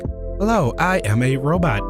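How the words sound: Each word has a different pitch inflection. "bad text to speech where it's like, each word is a different inflection"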